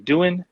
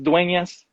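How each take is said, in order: First: The name is said like the English word 'doing'. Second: The name is said with three syllables, 'doo-en-yas'. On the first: The speaker calls it wrong. "everybody that mispronounces it, they always say doing" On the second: The speaker calls it right. "it's Dueñas"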